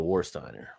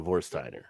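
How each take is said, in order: First: The word begins with a W sound. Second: The word begins with a V sound. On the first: This is how it is said in America. "In America, you say Warsteiner" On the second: This is how it is said in Germany. "if you were in Germany, you would say Vorsteiner"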